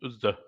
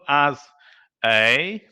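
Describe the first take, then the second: First: The vowel is reduced to a schwa. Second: The vowel is full, not reduced. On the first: The speaker calls it right. "but uz" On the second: The speaker calls it wrong. "not as a"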